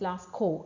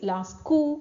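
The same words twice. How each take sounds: First: It is pronounced with an English accent. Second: It is pronounced with a French accent. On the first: "English pronunciation is" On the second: "French pronunciation is"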